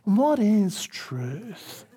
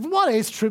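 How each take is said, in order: First: It is asked in a musing, philosophical way. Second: It is spat out with scornful contempt.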